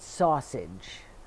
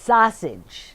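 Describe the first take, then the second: First: It is said with a non-Chicago pronunciation. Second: It is said with a Chicago pronunciation. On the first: The speaker calls it wrong. "not sausage" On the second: The speaker calls it right. "It's sausage"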